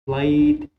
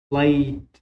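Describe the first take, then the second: First: بليد said the wrong way, louder, as a student might; teacher shows the mistaken بليد to avoid; wrong pronunciation shown. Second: بليد said long and stressed, as the teacher wants; teacher models بليد with the right vowel for students; correct model pronunciation. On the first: معلم يقلد اللفظ الخاطئ لكلمة بليد. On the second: معلم يلفظ بليد بصوت علة واضح. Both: Shown as a demonstration. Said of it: "مو بليد".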